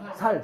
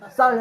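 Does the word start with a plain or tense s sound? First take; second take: plain; tense. First: The word starts with a plain s sound. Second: The word starts with a tense s sound. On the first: "경상도 사람들이 ... 살, 살 그러잖아요" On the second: "쌀 해봐"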